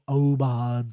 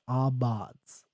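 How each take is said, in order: First: The word begins with an 'oh' sound. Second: The word begins with an 'ah' sound. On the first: The speaker calls it right. "it's probably o- Obads or something, I'm not sure" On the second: The speaker calls it wrong. "so that's how I'm pronouncing it, as Abads"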